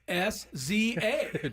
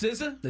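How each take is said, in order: First: The name is spelled out letter by letter. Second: The name is said as a single word. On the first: The speaker calls it wrong. "my dorky pronunciation" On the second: The speaker calls it right. "but it's not. It's"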